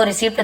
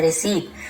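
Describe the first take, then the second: First: रिसिप्ट said with a sounded p, "ri-sipt"; wrong pronunciation. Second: रिसीट said "ri-seet", with no p; correct pronunciation. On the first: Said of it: "actual में ये रिसिप्ट नहीं है". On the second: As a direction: say रिसीट with a silent p. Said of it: "इसे हम ऐसे रिसीट पढ़ते हैं". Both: Shown as a demonstration.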